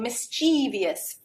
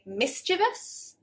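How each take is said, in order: First: The word is said with four syllables. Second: The word is said with three syllables. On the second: "three syllables"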